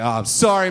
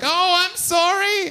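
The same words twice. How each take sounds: First: Mock apology. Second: Very high, slow, exaggerated apology; hammed-up sorry in a squeaky voice; apologetic gang member. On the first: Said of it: "I'm like". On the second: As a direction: grovel comically as the tough guy. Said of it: "very apologetic".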